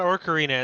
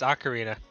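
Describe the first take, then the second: First: An R sound follows the first vowel. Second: No R sound follows the first vowel. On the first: The speaker calls it wrong. "It's not Ocarina" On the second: The speaker calls it right. "There's no first R"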